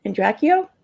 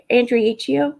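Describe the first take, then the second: First: Andracchio as an-DRACK-ee-oh, questioning rise; second try at the name. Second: Andriacchio as an-dree-AH-kee-oh, questioning rise; trying a pronunciation. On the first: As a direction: say Andracchio without the "ie", checking. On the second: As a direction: say Andriacchio with the extra "ie", unsure. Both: Real, not acted. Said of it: "Type one if, if I'm right".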